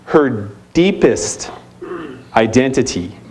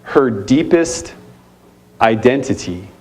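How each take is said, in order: First: "deepest" stretched slowly, "identity" dropping; repeated once more for weight; slow emphatic repeat. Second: "deepest" drawn out slowly and weighted; slow emphatic repeat. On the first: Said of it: "Let me say it again". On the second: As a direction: lean on "deepest", then let "identity" fall low. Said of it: "Let me say that again". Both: Shown as a demonstration.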